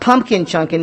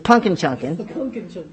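First: The first word is said as full 'pumpkin'. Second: The first word is said as reduced 'punkin'. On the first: The speaker calls it wrong. "it's not pumpkin chunkin'" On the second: The speaker calls it right. "it's punkin chunkin'. P U N K I N"

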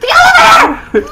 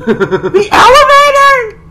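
First: It is an excited exclamation with a falling end. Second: It is an incredulous question with a rising end.

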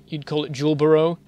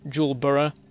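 First: The ending is said in an American way. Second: The ending is said in a non-American way.

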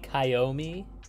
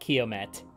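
First: The final T is left silent. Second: The final T is clearly pronounced. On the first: The speaker calls it right. "pronounced Frenchly with a silent T" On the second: The speaker calls it wrong. "So not Kiomet, which is how it's pronounced a lot"

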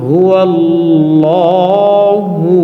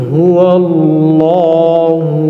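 Both takes have the same delivery.

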